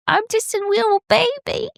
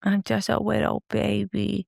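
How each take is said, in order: First: Put-on much higher, squeaky "wittle baby" talk. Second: Put-on softer, higher lisping "wittle baby". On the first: Demonstrating the baby voice for the dilemma, in high baby talk. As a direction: squeak it like a tiny toddler. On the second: Echoing her co-host's baby voice demo, softly in baby talk. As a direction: coo it sweetly like a toddler. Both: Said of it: "a baby voice".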